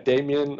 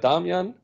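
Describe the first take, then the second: First: The name is pronounced the English way. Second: The name is pronounced the German way.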